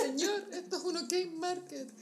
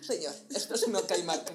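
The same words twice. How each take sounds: First: Quoting meme. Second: Lower, loud deadpan repeat with a laugh; meme echo. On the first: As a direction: deliver the meme line with a laugh. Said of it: "quoting a meme, laughing". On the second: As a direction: echo the line flatter and lower. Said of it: "repeat of the meme". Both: Retold or imitated.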